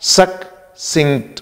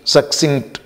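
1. शब्द दो अलग हिस्सों में बंटा होता है। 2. शब्द एक ही इकाई की तरह सहजता से बोला जाता है। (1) "just you divide it into टू parts" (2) "and then you pronounce it"

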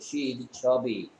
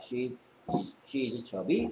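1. 끝에서 음높이가 내려갑니다. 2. 끝에서 음높이가 올라갑니다. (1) "아니고" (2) "왜 끝을 올립니까?"

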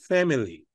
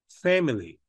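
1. La primera vocal es un sonido anterior parecido a 'eh'. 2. La primera vocal es un sonido anterior parecido a 'eh'.

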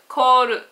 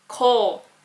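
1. 独立した'ru'の音節で終わる。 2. 'ru'はなく、弱いLで終わる。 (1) "日本語のように" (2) "ルというふうにはなりません"

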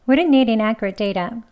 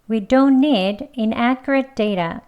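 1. 이 문장은 빠르게 발음돼요. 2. 이 문장은 천천히 발음돼요. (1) "이번엔 빨리 해볼게요" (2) "천천히 두 번 하겠습니다"

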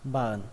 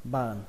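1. Âm T bị lược bỏ, kết thúc bằng âm mũi. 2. Âm T bị lược bỏ, kết thúc bằng âm mũi.

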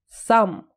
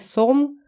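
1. Гласный звучит как открытый 'ah'. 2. Гласный звучит как округлённый 'oh'. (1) "Слово «сам» читается с «а»" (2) "Никогда не говорите «сом»"

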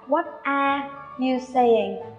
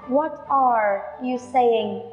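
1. Âm r trong 'are' bị bỏ đi, lưỡi không cong. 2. Âm r trong 'are' được cong, lưỡi nâng lên. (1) "đừng bao giờ đọc nó là" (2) "Nó phải là what are you saying, cong lưỡi lên nhé"

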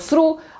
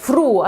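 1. Pierwszy dźwięk to s. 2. Pierwszy dźwięk to f. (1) "błędny dźwięk through, f albo s" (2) "błędny dźwięk through, f albo s"

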